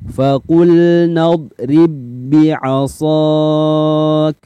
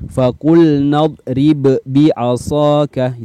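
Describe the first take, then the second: First: The first b merges into the second without bounce. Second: The first b is released with a bounce. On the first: The speaker calls it right. "kita akan praktek di dalam contoh berikut ini" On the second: The speaker calls it wrong. "Jangan lagi dibaca ... itu keliru"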